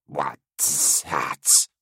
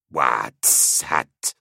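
First: Rasping creature voice mimicking her words; creature echo. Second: Creature giggling the words back. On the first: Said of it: "echoing her sounds without understanding them". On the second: Acted. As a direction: giggle it like a mocking monster. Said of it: "it giggled".

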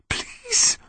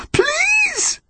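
First: Soft whispered plea. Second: Very high, anguished plea; desperate cry. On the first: Connor pleading to himself, desperate whisper. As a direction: beg under your breath. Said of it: "Connor whispered to himself". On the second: Connor pleading as his grip fails, anguished cry. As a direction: beg it in a wailing cry. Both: A narrator's reading.

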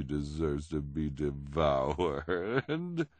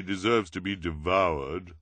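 First: Slow, drawn-out DEVOURED; mock reassurance. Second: Louder put-on character voice at normal pace; earnest objection. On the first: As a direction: relish the word devoured, stretching it out. Esme echoes Violet with false smile. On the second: Violet's worried objection in story. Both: A narrator's reading.

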